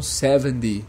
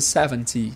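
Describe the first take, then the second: First: The t is flapped, sounding like a d. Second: The t is a clear t sound.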